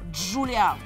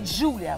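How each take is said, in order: First: The stress is on the last syllable. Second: The stress is on the first syllable.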